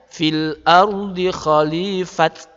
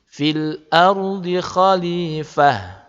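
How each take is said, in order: First: The last word ends with a 't' sound. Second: The last word ends with a soft 'h' sound. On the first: The speaker calls it wrong. "juga bukan dibaca" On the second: The speaker calls it right. "jadinya ha"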